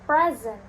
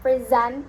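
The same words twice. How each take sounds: First: The stress is on the first syllable. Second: The stress is on the second syllable. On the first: It is used as a noun. "the noun is on the first syllable" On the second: It is used as a verb. "the verb is on the second syllable"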